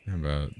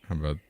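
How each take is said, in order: Both takes have the same delivery.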